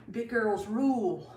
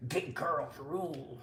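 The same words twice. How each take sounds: First: Said in the usual way. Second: Low, slow, quieter slogan; put-on low voice; mock deep voice. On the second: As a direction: drop it way down, slow and playful.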